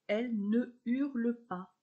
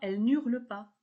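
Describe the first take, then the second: First: The vowel of ne is kept before hurle. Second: The vowel of ne is dropped before hurle. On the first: The speaker calls it right. "on ne fait pas l'élision" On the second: The speaker calls it wrong. "On ne dit pas"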